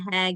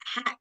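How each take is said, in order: First: A light airy h, like laughing. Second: A sharp raspy h from deeper in the throat. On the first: "biasa kita kalau ketawa nih" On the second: "yang keluar dari tengah tenggorokan, dia lebih pedas"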